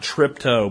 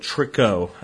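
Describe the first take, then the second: First: The second syllable begins with a p sound. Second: The second syllable begins with a k sound. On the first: The speaker calls it wrong. "you got the name a little bit mispronounced" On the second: The speaker calls it right. "I believe it's Trichogramma"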